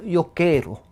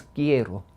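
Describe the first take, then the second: First: Put-on "quiero" in the old Ladino way, as in Portuguese; Ladino pronunciation. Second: "quiero" as modern Spanish says it, kye-ro; modern Spanish pronunciation. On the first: Showing the interviewer Ladino speech, Ladino pronunciation. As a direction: say "quiero" like a Ladino speaker would. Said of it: "en ladino, como en portugués". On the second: Contrasting modern Spanish for the interviewer, standard pronunciation. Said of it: "y en el moderno es". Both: Shown as a demonstration.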